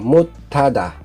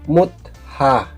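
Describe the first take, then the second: First: The word is said as 'mutada'. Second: The word is said as 'mutha'. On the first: The speaker calls it right. "magiging uh, mutada" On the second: The speaker calls it wrong. "hindi mutha"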